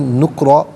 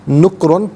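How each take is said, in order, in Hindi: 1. शब्द लंबे 'a' स्वर पर खत्म होता है। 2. शब्द 'an' की आवाज़ पर खत्म होता है। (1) "वफ़ की सूरत में नुक्रा पढ़ा जाएगा" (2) "नुक्रन पढ़ेंगे"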